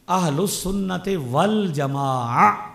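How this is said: Arabic linking, ending in an open long vowel. "अगर अरबी में पढ़ना है तो क्या कहना है?"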